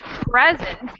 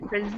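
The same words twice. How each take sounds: First: The stress is on the first syllable. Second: The stress is on the second syllable. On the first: It means a gift. "the first syllable accent would be a gift" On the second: It means to show something. "and present is show"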